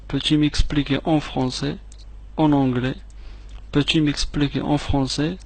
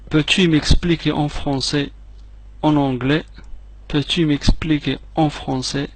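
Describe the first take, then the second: No difference in how they are said.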